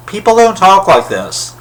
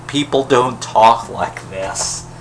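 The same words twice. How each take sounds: First: Don't punched high and loud; exasperated, hit don't hard and high; emphatic complaint. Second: Slow, spaced-out, stress on people; slow deliberate repeat. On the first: Repeats complaint, first take emphatic. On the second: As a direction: spell it out slowly, word by word. Repeats complaint, second take slow. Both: Real, not acted.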